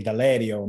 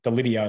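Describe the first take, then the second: First: Deledio with the second E like an A; "Deledio" with an "ay" in the middle; Italian pronunciation. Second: Delidio with a short "lid" in the middle; "Delidio" anglicised, short i as in lid; Australian pronunciation. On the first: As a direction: say Deledio the Italian way, "de-LAY-dio". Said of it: "That second E is like an A". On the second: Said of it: "like we say here in Australia". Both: Shown as a demonstration.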